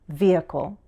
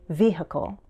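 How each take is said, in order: First: There is no H sound in the middle. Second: There is an H sound in the middle. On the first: "I usually say vehicle" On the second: "insert an H sound"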